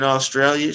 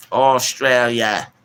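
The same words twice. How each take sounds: First: Said in the usual way. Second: Slow, drawn-out mock Australian accent, higher; badly faked Australian accent, stretched out. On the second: Streamer shouting out Australia, terrible mock Australian accent. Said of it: "Don't get me doing that accent".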